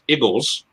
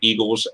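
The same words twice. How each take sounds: First: It is said in a local Philadelphia accent. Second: It is said in a standard American accent. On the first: "the local Philadelphia accent is a bit uh, odd" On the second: "refer to Eagles"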